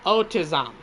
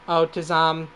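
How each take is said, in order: First: Weak robot voice, barely changed; half-hearted robot monotone. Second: Robot voice. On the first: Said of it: "Wait, that's bad". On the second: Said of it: "the robot voice". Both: Acted.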